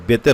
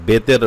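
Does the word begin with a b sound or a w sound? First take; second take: b; b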